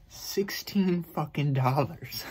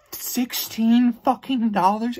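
First: Each word dragged out in disbelief; slow stunned emphasis. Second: High, slow, incredulous shout of the price; outraged disbelief. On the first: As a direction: let the price land slowly. Disbelief at ticket price. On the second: Ranting vlogger repeats the ticket price, outraged and slow. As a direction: stretch it out, appalled. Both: Real, not acted.

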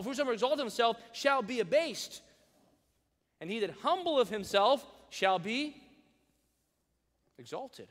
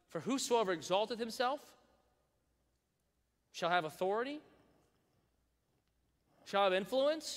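First: Louder, higher, emphatic verse; preaching the correct verse out loud; emphatic correct reading. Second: Rising, questioning misreading; playful wrong version of the verse; mock misquote. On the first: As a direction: proclaim the real verse. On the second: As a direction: read it wrong on purpose, rising. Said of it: "Is that what it says? No". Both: Shown as a demonstration.

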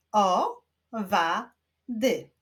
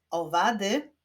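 First: Very slow "Owady" as O, wa, dy; three beats in "Owady" with long pauses; syllable by syllable. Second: Said in the usual way. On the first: Shown as a demonstration. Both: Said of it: "wyklaszczmy sylaby".

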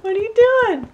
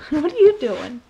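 First: High pet talk. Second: Laughing question. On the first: Asking the pet what it's up to in high baby talk. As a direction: squeak it at the puppy. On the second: Laughing at the pet. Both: Real, not acted.

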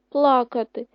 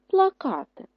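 First: ПЛАкати, loud on the first syllable; PLA-ka-ty, weight up front; stress on first syllable. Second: ПлаКАти, high on the stressed КА; pla-KA-ty, loud middle syllable; stress on second syllable. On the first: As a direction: punch ПЛА at the start of плакати. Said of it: "І поставили теж на А, але на першу". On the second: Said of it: "поставили на А наголос". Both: Shown as a demonstration.

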